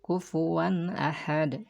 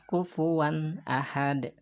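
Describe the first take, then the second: The two takes are said the same way.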